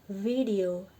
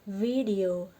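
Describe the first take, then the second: The two takes are said the same way.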